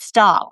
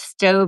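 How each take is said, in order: First: The name ends with a p sound. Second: The name ends with a v sound. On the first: The speaker calls it wrong. "which is how I've been pronouncing it for a decade" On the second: The speaker calls it right. "It's Stove and rhymes with robe"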